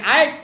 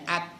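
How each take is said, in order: First: The vowel glides into an 'ai' sound. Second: The vowel is a plain short 'a' sound. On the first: The speaker calls it wrong. "bukan aik" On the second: The speaker calls it right. "ini hamas ni keluar angin je"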